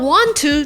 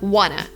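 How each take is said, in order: First: Both words are said fully and separately. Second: The words blend into one reduced word. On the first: "want to turns into" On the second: "turns into wanna"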